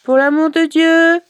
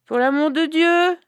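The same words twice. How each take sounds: First: High, loud, doleful wail of a beggar; plaintive beggar voice. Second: High, doleful beggar's plea; plaintive beggar voice. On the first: Zalgoum at her brother's door, begging in a doleful wail. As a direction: plead pitifully at the door, voice raised high. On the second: Zalgoum repeating her plea at the door, doleful and high. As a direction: beg again with the same pitiful whine. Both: Acted. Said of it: "Elle fit sa voix dolente".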